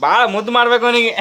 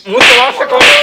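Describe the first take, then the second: First: Said in the usual way. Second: ಮುದ್ದು ಮಾಡ್ಬೇಕು said much higher and louder, sneering; shrill mocking repeat. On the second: (ಎತ್ತರದ ವ್ಯಂಗ್ಯ ಧ್ವನಿ)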